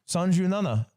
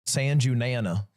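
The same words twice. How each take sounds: First: It is said with a Japanese accent, quickly. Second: It is said with an American accent. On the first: "That's how you say it" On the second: "You want me to say it with an American accent?"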